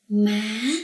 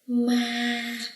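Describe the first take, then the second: First: The pitch rises upward through the word. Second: The pitch stays level throughout. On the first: "The second tone going up" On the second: "It doesn't go up or down. It's level"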